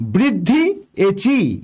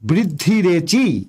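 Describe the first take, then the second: First: The two parts are kept separate. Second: The two parts are joined into one. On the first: The speaker calls it wrong. "বৃদ্ধি এচি বলা যাবে না" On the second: The speaker calls it right. "অবশ্যই সন্ধি করতে হবে"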